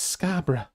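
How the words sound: It is said in a British accent. "people in the U K ... they're like"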